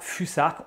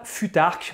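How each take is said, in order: First: The middle consonant is a plain 's' sound. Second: The middle consonant is a plain 't' sound. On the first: "on ne dit pas fusarque" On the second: "on ne dit pas futarque"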